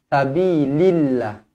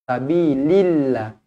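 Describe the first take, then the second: No difference in how they are said.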